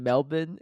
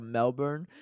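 First: Melbourne said as "Melbin"; Melbourne with a swallowed second syllable; local pronunciation. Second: Melbourne with a full "burn" ending; Melbourne, second syllable fully sounded; spelling pronunciation. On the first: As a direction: end Melbourne on a short "bin". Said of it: "keep saying Melbourne instead of Melbourne". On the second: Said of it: "instead of Melbourne". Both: Retold or imitated.

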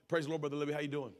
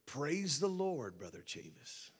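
First: Mildly put-on church greeting; everyday church pleasantry, lightly acted; putting on a good side. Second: Slow, drawn-out church greeting, dropping off; Brother Libby. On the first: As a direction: lightly mimic a polite front on the phone. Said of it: "Put on our good side". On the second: Retold or imitated. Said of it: "And, you know, Brother Libby".

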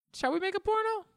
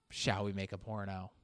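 First: Very high Shall we make a porno; a falsetto trailer line; mock falsetto ad. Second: Low, hushed Shall we make a porno; a sultry low whisper-like read; low, soft take. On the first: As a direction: squeak the question. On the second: Pretend. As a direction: drop down and say it softly. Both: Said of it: "imagine that being marketed".

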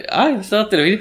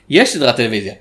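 First: Higher-pitched, softly voiced surprised discovery; surprised question. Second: Said in the usual way. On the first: Recounting his googling to the co-host, surprised question. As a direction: react as if just finding this out.

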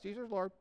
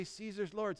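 First: Said really fast. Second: Said in the usual way. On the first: Retold or imitated. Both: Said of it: "Say it really fast".

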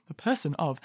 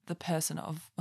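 First: Laughing. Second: Said in the usual way. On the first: Real, not acted. Catching herself, she laughs while repeating. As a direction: say it through a small laugh.

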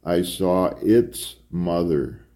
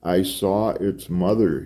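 First: Slow, with ITS set apart; insistent correction. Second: Restrained, emotion-laden admission; thick with emotion. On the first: Priest corrects Thorne, slow stress on ITS. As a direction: correct him slowly, leaning on ITS. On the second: Priest replies to Thorne, thick with emotion. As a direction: admit it with held-in emotion. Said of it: "his voice thick with emotion". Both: A narrator's reading.

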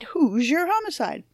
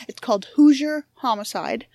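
First: Higher, punchy game show title; game show announcer. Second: Said in the usual way. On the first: Shown as a demonstration. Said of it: "it sounds like a game show". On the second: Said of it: "if you say it fast, it sounds like a game show".

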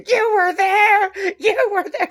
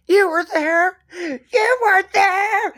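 First: High, slow, crying mock drunk wail; same tipsy wail, half sobbing; drunk mom again. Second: High, slow, slurred mock drunk wail; drunk mom. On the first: Retelling the mom repeating her line, high teary drunk wail. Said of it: "Delivers the line the exact same way". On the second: Retelling the drunk mom at the wake, high slurred wail. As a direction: drag it out like a tipsy mourner. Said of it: "the mom is completely drunk".

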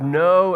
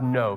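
First: "know" hit louder than the words around it; stressed word. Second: Said in the usual way. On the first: Shown as a demonstration. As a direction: punch out "know" as the key word. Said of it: "circle the word". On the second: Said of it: "he uses this word".

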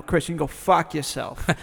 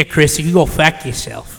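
First: Corrective Boston accent with an open "ah" in "fuck"; Boston accent demo. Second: Imitating a Boston accent, not quite right; botched Boston accent. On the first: Shown as a demonstration. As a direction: show how Boston says it, vowel wide open. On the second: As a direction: attempt a Boston "fuck" with a fronted vowel. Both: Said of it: "you didn't do it right".

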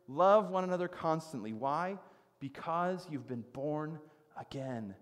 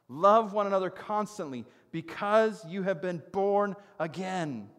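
First: "Love one another constantly" pressed, then "because you've been born" slowed; measured emphatic restatement. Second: "Love" and "because you have been born" driven higher and louder; emphatic scripture reading. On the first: Preacher walking listeners through the verse, measured emphatic restatement. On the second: Preacher showing Peter's emphasis to the congregation, emphatic scripture reading. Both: Shown as a demonstration. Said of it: "You see the emphasis there?".

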